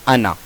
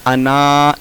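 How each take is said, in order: First: अना with a short final अ; अना with its alif silent; correct recitation. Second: अना with a long final आ; अना with its alif sounded; written-form reading. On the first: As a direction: cut the end of अना short. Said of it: "पढ़ा जाएगा". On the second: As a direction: stretch the end of अना. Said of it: "लिखा हुआ है". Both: Shown as a demonstration.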